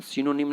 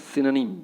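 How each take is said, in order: First: सिनोनिम with a full o; सिनोनिम read as spelt; wrong pronunciation. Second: सिनोनिम as "SI-nuh-nim"; सिनोनिम without the full o; correct pronunciation. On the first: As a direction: say सिनोनिम as "si-NO-nim". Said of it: "सिनोनिम नहीं बोलना है". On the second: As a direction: say सिनोनिम with a weak middle vowel. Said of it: "क्या बोलना है?". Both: Shown as a demonstration.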